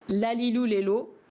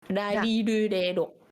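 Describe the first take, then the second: First: The consonant is a clear L sound. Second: The consonant is between an R and an L. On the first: "il vaut mieux le prononcer comme un L" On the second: "c'est pas un R, c'est pas un L. C'est entre les deux"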